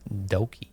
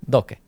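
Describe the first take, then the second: First: The name ends with a final 'ee' vowel. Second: The name ends without a final 'ee' vowel. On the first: This is how an American audience would say it. "or or Doki" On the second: This is the original native form of the name. "this is the pronunciation"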